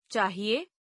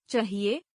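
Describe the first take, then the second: First: Said in the usual way. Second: चाहिए with a short first vowel; mispronounced. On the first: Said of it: "शुद्ध". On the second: Shown as a demonstration. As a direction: say चाहिए as "chahiye" with a schwa. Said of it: "अशुद्ध".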